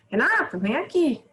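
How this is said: It is called out with strong emotion. The call is urgent and full of feeling. "Olha a minha entonação. Se eu usar essa entonação, esse sentimento, vou usar uma exclamação"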